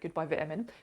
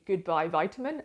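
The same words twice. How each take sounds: First: Vitamin is pronounced the British way. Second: Vitamin is pronounced the American way. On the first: "As a Brit, I would say" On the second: "if pronounced in the American um, pronunciation"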